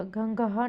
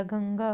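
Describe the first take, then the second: First: गंगहा with an extra "ha" at the end; misspelling read out. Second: Said in the usual way. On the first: Shown as a demonstration. Teacher showing students a misspelling, extra syllable. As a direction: add a final "ha" syllable in गंगहा. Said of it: "नहीं होता". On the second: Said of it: "होता है".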